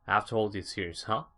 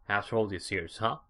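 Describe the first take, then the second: No difference in how they are said.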